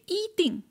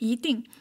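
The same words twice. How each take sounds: First: The first syllable has a high level tone. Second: The first syllable has a rising tone. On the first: "I didn't say 一定" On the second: "you hear me saying 一定"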